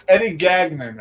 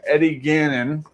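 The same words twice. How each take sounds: First: "Gagnon" said GAG-nun, hard g; self-corrected "Gagnon" as GAG-nun; corrected pronunciation. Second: "Gannon" said GAN-un, no g inside; "Gannon" as GAN-un, slowly; first-guess pronunciation. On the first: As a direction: sound the g inside "Gagnon". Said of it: "actually, I think is his name". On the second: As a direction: say "Gannon" with a plain double n. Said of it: "I think is his name". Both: Real, not acted.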